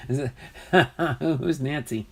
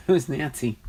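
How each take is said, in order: First: Asked through a laugh; giggling disbelief at the name. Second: Said in the usual way. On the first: Real, not acted. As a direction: let the laugh spill into the question. Repeats question while laughing.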